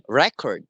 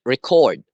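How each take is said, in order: First: "record" stressed on the first syllable, REC-ord. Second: "record" stressed on the second syllable, re-CORD. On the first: Teacher showing the class an example, first-syllable stress on "record". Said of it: "the stress is in the first syllable". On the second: Teacher contrasting two words, second-syllable stress on "record". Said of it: "the stress is in the second syllable". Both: Shown as a demonstration.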